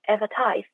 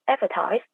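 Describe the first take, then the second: First: The stress is on the last syllable. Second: The stress is on the first syllable. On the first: "it is stressed on the final syllables" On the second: "stressed in the first syllable"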